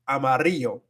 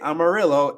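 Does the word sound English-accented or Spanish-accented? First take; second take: Spanish-accented; English-accented. First: It is said with a native Spanish accent. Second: It is said with an English-speaker's accent. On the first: The speaker calls it right. "it's Amarillo" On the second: The speaker calls it wrong. "You don't say Amarillo; they'll make you sound really gringo"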